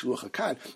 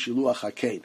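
First: The last word has an 'ah' vowel. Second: The last word has an 'ay' vowel. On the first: The speaker calls it wrong. "Everybody says shiluach hakan" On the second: The speaker calls it right. "It really is shiluach hakein"

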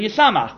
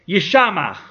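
First: The second consonant is an s sound. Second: The second consonant is an sh sound. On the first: It means happiness. "with a sin" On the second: It means destruction. "You could read it with a shin"

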